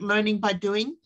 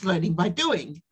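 First: The pitch rises at the end. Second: The pitch falls at the end. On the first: It sounds like asking a question. "the way I just went up now" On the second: It is a plain statement.

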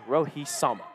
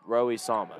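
First: The name is said crisp and sharp. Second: The name is said flat and bland. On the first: The speaker calls it right. "It's got to be said Rohi Sama. Like, sharp pronunciation" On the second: The speaker calls it wrong. "You can't say it, like, blandly"

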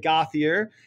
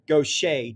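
First: The surname is said in an Americanized way. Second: The surname is said in a Cajun French way. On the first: The speaker calls it wrong. "normally in New Hampshire, people will say Gauthier" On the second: The speaker calls it right. "a Cajun French perversion of Gauthier becomes Gaucher"

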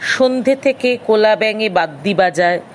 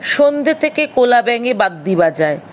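The two takes are said the same way.

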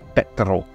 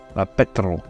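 First: The P at the start is strongly enunciated. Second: The P at the start is strongly enunciated.

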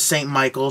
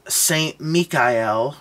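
First: The name is said as the English two-syllable Michael. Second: The name is said in three syllables, Mee-ka-el. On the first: This is the familiar English form. "which is Saint Michael" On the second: This is the name's original form. "he likes to be called Saint Mikael, his original pronunciation of the name"

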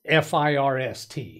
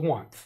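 First: The ordinal is said as the usual word 'first'. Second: The ordinal is said as 'one' with 'th' added. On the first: The speaker calls it wrong. "Today is not FIRST. Where do they get that from?" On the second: The speaker calls it right. "It's day number one. Add a TH on the end of that"

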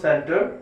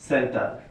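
First: The second syllable has an 'o' vowel. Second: The second syllable has an 'a' vowel. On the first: The speaker calls it right. "এটা সেন্টর হবে শব্দটা" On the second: The speaker calls it wrong. "আমাদের বাংলাদেশের উচ্চারণে এই শব্দটা হয়ে যায় সেন্টার"

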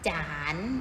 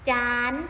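First: The syllable is said on a rising tone. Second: The syllable is said on a high tone.

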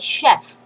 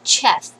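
First: The word begins with a soft sh sound. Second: The word begins with a hard ch sound. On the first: The speaker calls it right. "I say chef" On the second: The speaker calls it wrong. "not chef"

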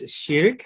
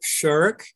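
First: The word is pronounced the Arabic way. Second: The word sounds like the English word shirk. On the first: The speaker calls it right. "The pronunciation is Sirk" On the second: The speaker calls it wrong. "not Shirk, as the English word shirk"

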